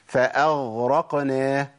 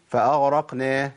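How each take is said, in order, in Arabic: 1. صوت الغين قوي ومكتمل. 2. صوت الغين ضعيف وشبه مفقود.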